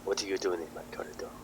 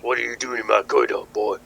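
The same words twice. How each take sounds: First: Put-on line slipping into a French accent; soft, quick French-accented challenge. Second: Louder, quicker surfer dude challenge; surfer dude boss. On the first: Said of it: "it's turned into French accent". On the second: Acted. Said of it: "surfer dude comes to the door".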